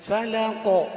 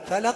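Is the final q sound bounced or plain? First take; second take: bounced; plain. First: The final q sound ends with a slight bounce. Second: The final q sound ends plainly, without a bounce. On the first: The speaker calls it right. "نقلقلها، نهزهزها هزهزة بسيطة" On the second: The speaker calls it wrong. "بدل ما نقول فلق فلق"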